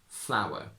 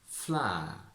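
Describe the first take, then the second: First: Modern RP, with a w glide in the vowel. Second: Traditional posh RP, vowel smoothed into long ah. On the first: "From traditional to modern" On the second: "From traditional to modern"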